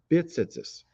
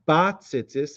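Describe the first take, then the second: First: The first vowel is an 'i' sound. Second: The first vowel is an 'a' sound. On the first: The speaker calls it wrong. "and not bit-tzitzis" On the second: The speaker calls it right. "pronouncing it ba-tzitzis"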